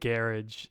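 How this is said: It is said with an attempted British pronunciation. "garage in I can't even say it right in uh, British English"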